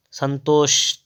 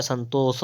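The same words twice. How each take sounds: First: "संतोष" ending in sh; first sibilant. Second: "संतोष" ending in plain s; corrected form. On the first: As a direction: say "संतोष" as san-tosh. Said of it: "तो क्या होता है?". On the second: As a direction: say "संतोष" as san-tos. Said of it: "होता है ये वाला". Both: Shown as a demonstration.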